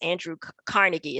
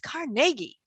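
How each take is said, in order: First: The name has the usual American pronunciation. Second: The name has a European-style pronunciation. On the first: This is how people in the United States say it. "is how we say it" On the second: This is closer to how his ancestors said it. "why are you saying Carnegie? It's Carnegie"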